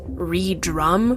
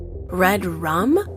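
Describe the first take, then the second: First: It is split after 're', as 're drum'. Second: It is split after 'red', as 'red rum'. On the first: "Is it re-drum, perhaps?" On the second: "I hope I'm pronouncing it correctly"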